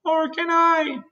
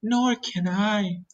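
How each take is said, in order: First: Very high glowworm wail. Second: Slow, high spider voice, less piercing than a wail; Miss Spider speaking. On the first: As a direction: wail "Nor can I" helplessly, high-pitched. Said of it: "wailed the glowworm". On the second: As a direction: draw out "Nor can I" as a spider. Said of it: "said Miss Spider". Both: A narrator's reading.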